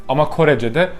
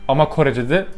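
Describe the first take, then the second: The two takes are said the same way.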